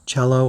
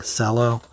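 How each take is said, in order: First: "cello" said CHELL-oh; CH pronunciation. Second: "cello" said with an S, SELL-oh; soft-C pronunciation. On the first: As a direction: start "cello" with a ch sound. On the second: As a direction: start "cello" with an s sound. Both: Shown as a demonstration. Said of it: "not sure which way it's pronounced".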